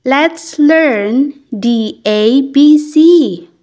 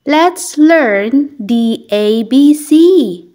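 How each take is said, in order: Both takes have the same delivery.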